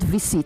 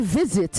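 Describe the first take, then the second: First: The middle consonant is an S sound. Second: The middle consonant is a Z sound. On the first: The speaker calls it wrong. "not a S" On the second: The speaker calls it right. "It is a Z"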